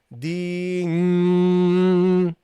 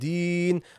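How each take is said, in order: First: The final n is held for too long. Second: The final n is short and cleanly stopped. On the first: The speaker calls it wrong. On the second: The speaker calls it right.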